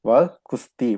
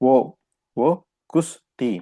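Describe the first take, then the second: First: The first word is pronounced vah. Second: The first word is pronounced voh. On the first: This is the formal written style. "எழுத்து வடிவத்துல பேசும்போது வஹ் அப்படின்னு சொல்லுவாங்க" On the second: This is the everyday spoken style. "பேச்சு வடிவத்துல பார்த்தீங்கன்னா"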